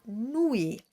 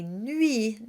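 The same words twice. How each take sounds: First: Nuit with an English oo; wrong nuit with oo. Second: Nuit with a tight rounded U; nuit with French U. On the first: Teacher shows the English speakers' mistake. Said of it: "not oo". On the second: Teacher models the correct French U in nuit. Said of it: "It's an U sound". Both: Shown as a demonstration.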